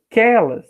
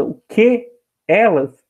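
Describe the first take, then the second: First: "Que elas" merged into one word, kelas; all run together. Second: "O que, elas" with "que" and "elas" said separately; words apart. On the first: Teacher showing elision, "Que elas" fused into kelas. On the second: Teacher showing the words before joining, "que" and "elas" kept apart. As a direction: leave a gap between "que" and "elas". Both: Shown as a demonstration. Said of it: "tudo junto".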